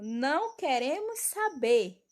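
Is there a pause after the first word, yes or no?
no. It is read straight through without a pause.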